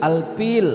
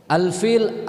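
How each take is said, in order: First: "Alpil" with a P where the F should be; Sundanese F as P. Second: "Alfil" said with a clear F, a little higher; correct F. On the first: Retold or imitated. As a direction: say "Alpil", swapping the F for P. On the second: Shown as a demonstration. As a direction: give "Alfil" a proper F sound. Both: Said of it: "agak susah ngucapin huruf fa".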